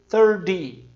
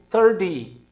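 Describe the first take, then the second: The two takes are said the same way.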